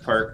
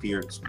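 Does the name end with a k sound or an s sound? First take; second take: k sound; s sound. First: The name ends with a k sound. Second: The name ends with an s sound. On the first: The speaker calls it wrong. "How do you pronounce perk?" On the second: The speaker calls it right. "perk is actually pronounced Pierce"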